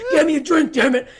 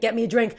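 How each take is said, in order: First: Louder, much higher demanding yell; mock aggressive. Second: Said in the usual way. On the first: Thirsty woman in the swing orders her date, mock aggressive. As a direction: bark the order in exaggerated anger. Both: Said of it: "how aggressive".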